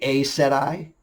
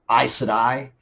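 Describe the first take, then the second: First: The first syllable sounds like 'ay'. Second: The first syllable sounds like 'eye'. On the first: The speaker calls it wrong. "The A E is an A" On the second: The speaker calls it right. "it is I said I"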